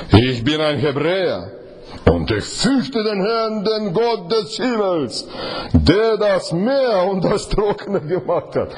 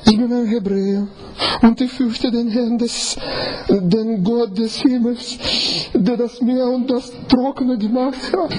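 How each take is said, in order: First: Slow, drawn-out and hesitant, with a slight laugh at the end; a slow, sheepish admission; hesitant confession. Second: A confident proclamation of faith; proud declaration. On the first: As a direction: say it haltingly, half embarrassed. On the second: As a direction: announce it boldly, head held high. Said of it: "mit welchem Ton?". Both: Shown as a demonstration.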